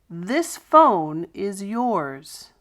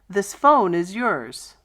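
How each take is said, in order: First: It is said slowly with emphasis on yours. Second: It is said at normal pace, yours reduced.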